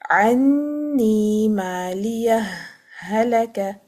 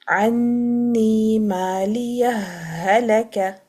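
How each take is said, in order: First: A short breathless pause separates maliyah and halaka. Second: The final h of maliyah merges straight into halaka. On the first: "either to apply a sakt ... It's a breathless pause" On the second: "or you can do the idgham ... the first ha sakina will be merging into the ha mutaharik"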